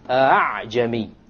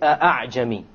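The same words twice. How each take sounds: First: The second hamza is softened, between hamza and alif. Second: The second hamza is a full glottal stop. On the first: The speaker calls it right. "Rather you pronounce it as follows" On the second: The speaker calls it wrong. "You don't say"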